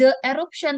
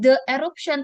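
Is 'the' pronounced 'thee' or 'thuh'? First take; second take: thuh; thuh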